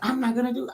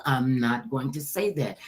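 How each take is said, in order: First: Higher-pitched, casual retold refusal; quick refusal. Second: Low, carefully worded retold refusal; firm refusal. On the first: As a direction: toss off the refusal up high. First take of her refusal. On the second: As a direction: bring it down and spell out the refusal. Restates refusal in full words.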